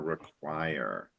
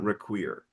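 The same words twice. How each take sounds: First: The last syllable has an open vowel. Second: The last syllable has a closed vowel. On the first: The speaker calls it right. "make the an open vowel sound. So so it's more require" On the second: The speaker calls it wrong. "not require"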